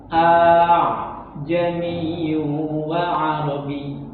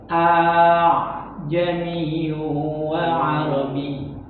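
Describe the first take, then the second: The two takes are said the same way.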